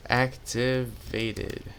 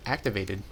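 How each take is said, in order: First: "Activated" drawn out slowly, syllable by syllable; slowly spelled out. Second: Said in the usual way. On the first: Shown as a demonstration. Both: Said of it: "'cause I cannot spell".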